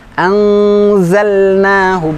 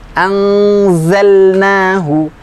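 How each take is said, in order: Both takes have the same delivery.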